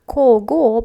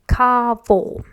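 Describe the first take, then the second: First: It is pronounced letter by letter as spelled. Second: It is pronounced differently from its spelling. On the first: The speaker calls it wrong. "It's written like кого, but we never, never, never read it like that" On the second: The speaker calls it right. "We always read this combination of letters as кого"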